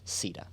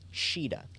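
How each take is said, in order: First: The name begins with an s sound. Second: The name begins with an sh sound. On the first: This is the English localized form of the name. "it is Sita" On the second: This is the original Japanese form of the name. "it's actually pronounced as Shida"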